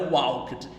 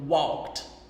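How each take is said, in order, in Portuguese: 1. O final não é um som de T puro. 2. O final é um som de T puro. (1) "Não é walked" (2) "é quase um som de T"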